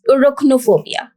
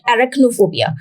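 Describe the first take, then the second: First: The first vowel is an 'uh' sound. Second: The first vowel is not an 'uh' sound. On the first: The speaker calls it right. "The correct pronunciation starts with U" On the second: The speaker calls it wrong. "this is not arachnophobia"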